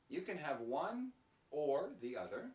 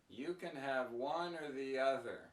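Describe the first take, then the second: First: The word 'or' is said fully and clearly. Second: The word 'or' is reduced to a weak sound.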